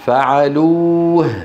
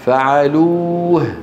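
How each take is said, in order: Both takes have the same delivery.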